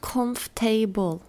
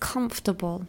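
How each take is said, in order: First: The ending sounds like the full word table. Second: The ending is reduced, not like the word table. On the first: The speaker calls it wrong. "not comfortable" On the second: The speaker calls it right. "is comfortable"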